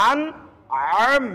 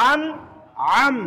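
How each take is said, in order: No difference in how they are said.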